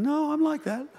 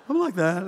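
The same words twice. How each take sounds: First: High, soft imitation of a mum's thought; small high-pitched mock objection; protesting mum. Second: Said in the usual way. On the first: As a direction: pipe up quietly as an objecting mum. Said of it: "some of you mums are sitting here thinking".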